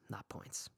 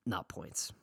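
First: Whispered echo of not points; whispered afterthought; whispered repeat. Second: Said in the usual way. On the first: Shown as a demonstration.

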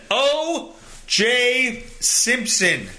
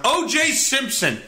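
First: O J Simpson stretched slow and dramatic; slow, announcer-like "O J Simpson"; drawn-out name. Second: Said in the usual way. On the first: Shown as a demonstration. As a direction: savour each syllable of "O J Simpson".

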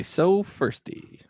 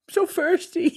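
First: So firsty said slowly and higher; slow, drawn out. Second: So firsty laughed out much higher; laughing imitation. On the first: Shown as a demonstration. Host repeating the hashtag name, slowly and higher. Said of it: "That is S O F E R S T Y". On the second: Cohost mocking the hashtag like a toothless kid, laughing. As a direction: giggle through so firsty mockingly. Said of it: "Sounds like my daughter without her teeth".

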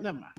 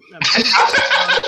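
First: Said in the usual way. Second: Slow, breathy laughing words. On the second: Real, not acted. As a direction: laugh it out slowly. Repeats it while laughing.

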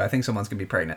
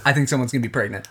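First: Softer, lower, half to herself; quiet repeat. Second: Rushed, quick repeat of the guess; fast repeat. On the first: Co-host restating her pregnancy guess, softly under her breath. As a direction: murmur the guess again. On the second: Co-host repeating her guess, rattled off quickly. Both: Shown as a demonstration.

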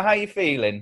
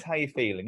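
First: Said in the usual way. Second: How you feeling? asked softer and kindly; a softer, nicer How you feeling?; softer, nice. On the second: Shown as a demonstration. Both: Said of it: "I'm gonna be nice".

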